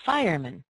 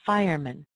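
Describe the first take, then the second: First: The last vowel is a weak schwa. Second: The same.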